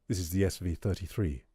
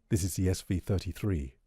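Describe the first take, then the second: No difference in how they are said.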